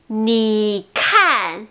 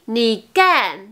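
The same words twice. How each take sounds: First: Slow "ni kan" with a puff on K; aspirated K. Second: "ni kan" said as ni gan, no puff; unaspirated G. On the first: Teacher giving the word for "look", aspirated K in "ni kan". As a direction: breathe out firmly on "kan". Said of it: "Vous voyez la différence?". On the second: Teacher showing the nonexistent word, G sound in "ni kan". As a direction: turn "kan" into an airless "gan". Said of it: "ça n'existe pas". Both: Shown as a demonstration.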